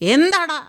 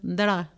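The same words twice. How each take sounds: First: The line is shouted with great force. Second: The line is said quietly and subtly. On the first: This is the older, overdone style of dubbing. The speaker calls it wrong. "ഇത്രയും കിടന്ന് shout ചെയ്യേണ്ട ആവശ്യമൊന്നുമില്ല" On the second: This is the newer, natural style of dubbing. The speaker calls it right. "എന്താടാ ചോദിച്ചാൽ മതി"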